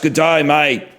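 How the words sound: It has a loud, outgoing Australian accent. "the Australian accent is more like, ... It's like very gregarious"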